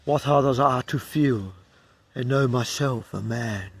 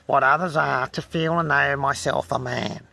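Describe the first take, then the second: First: A clear pause between feel and and, then let "know myself a man" fall; correct phrasing. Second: "feel and know" slurred together with no pause; run-on misreading. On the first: Reader showing the right way, with a pause after feel. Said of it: "I should have ended with". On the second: Reader mocking his own slip by running the line together. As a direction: rush straight through "feel" into "and know". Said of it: "But I, instead I said". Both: Shown as a demonstration.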